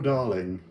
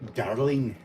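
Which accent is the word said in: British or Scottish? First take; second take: British; Scottish. First: It is said in a pompous British accent. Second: It is said in a Scottish accent. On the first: "I can do the, the, the pompous British accent" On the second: "trying to think of how to do that with a Scottish accent"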